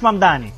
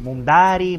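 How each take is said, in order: First: The middle consonants are m and d. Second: The middle consonants are n and d. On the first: This is how the owner of the name says it. The speaker calls it right. "Es Mamdani" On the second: This is how other people often say it. The speaker calls it wrong. "a cada rato me dicen Mundari"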